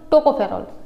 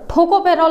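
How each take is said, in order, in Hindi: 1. पहला व्यंजन अल्पप्राण है, इसमें हवा का झोंका नहीं होता। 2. पहला व्यंजन महाप्राण है, इसमें हवा का झोंका होता है।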